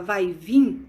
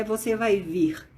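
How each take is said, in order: First: Said in the usual way. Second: "você vai vir" said slowly and carefully; slow, careful demo of the correct form. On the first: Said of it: "quando você fala". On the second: Shown as a demonstration. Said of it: "de acordo com o correto".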